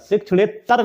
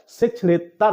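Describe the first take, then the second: First: शिक्षणेतर said "shikshanet-tar"; wrong doubled t. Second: शिक्षणेतर said slowly "shikshane-tar"; slow, with one t in शिक्षणेतर; correct single t. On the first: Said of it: "double तय नहीं होता है". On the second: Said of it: "single तय होता है". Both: Shown as a demonstration.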